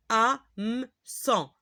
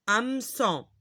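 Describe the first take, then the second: First: Slow Hameçon, pulled apart as ha-me-çon; syllable by syllable. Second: Said in the usual way. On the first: Shown as a demonstration. Teacher reading hameçon for learners, syllable by syllable. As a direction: sound out HAMEÇON in separate pieces.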